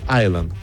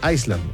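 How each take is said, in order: First: The S sound is left silent. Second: The S sound is pronounced in the word. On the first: The speaker calls it right. "se pronuncia Island sin la S" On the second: The speaker calls it wrong. "Hay gente que dice Iceland, no"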